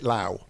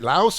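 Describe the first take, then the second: First: The word ends without an s sound. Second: The word ends with an s sound. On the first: "or is it Lao?" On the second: "Is it Laos"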